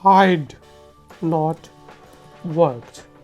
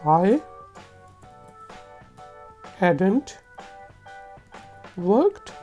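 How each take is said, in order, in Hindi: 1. I और had एक शब्द में मिल जाते हैं। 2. Had और not एक शब्द में मिल जाते हैं। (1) "दूसरा तरीका है" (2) "पहला तरीका है"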